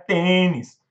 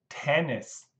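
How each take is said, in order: First: The first t has no puff of air. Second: The first t has a puff of air. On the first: The speaker calls it wrong. "Não é tênis" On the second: The speaker calls it right. "O T também tem sopro"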